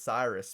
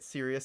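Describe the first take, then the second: First: It sounds like 'Cyrus', starting with 'sigh'. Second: It sounds like 'serious', starting with 'seer'. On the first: The speaker calls it wrong. "I always called it Cyrus before" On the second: The speaker calls it right. "I think that's how you say it"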